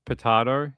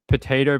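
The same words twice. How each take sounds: First: Potato as puh-TAH-toh; stressed open "ah" in the middle of potato; potahto pronunciation. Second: Potato as puh-TAY-toh; stressed long "ay" in the middle of potato; potato pronunciation. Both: Shown as a demonstration. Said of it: "I can't help you with the pronunciation".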